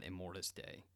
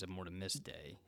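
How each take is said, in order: First: "Immortus" with no "ti" syllable; "Immortus", ending straight in "tus"; shorter name. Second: "Immortimus" with an added "ti" syllable; "Immortimus", ending in "timus"; extra syllable. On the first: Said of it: "and not Immortus Day". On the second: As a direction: say "Immortimus" in four syllables, im-MOR-ti-mus. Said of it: "it was Immortimus Day and not Immortus Day". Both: Shown as a demonstration.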